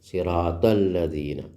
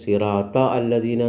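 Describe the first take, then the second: First: The alif is silent, joining the two words. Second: The alif is pronounced, separating the two words. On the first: The speaker calls it right. "അപ്പോൾ നമ്മൾ ആലിഫ് ഉച്ചരിക്കുന്നില്ല" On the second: The speaker calls it wrong. "എന്ന് നമ്മൾ ഓതാൻ പഠിച്ച അല്ല"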